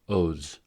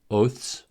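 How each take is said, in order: First: The ending has a voiced th and z. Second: The ending has a voiceless th and s. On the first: "the voiced" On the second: "the voiceless consonant cluster ths"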